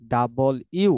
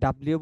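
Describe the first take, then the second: First: The letter name is said as two full words. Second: The letter name is squeezed into one clipped word. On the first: The speaker calls it right. "আমরা আজ থেকে বলবো ডাবল ইউ" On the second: The speaker calls it wrong. "ডাব্লিউ বলবো না"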